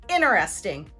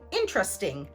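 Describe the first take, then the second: First: The T after the N is dropped. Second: The word is said with three syllables. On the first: "remove the T sound because it follows the N sound" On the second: "British English speakers may often say interesting, three syllables"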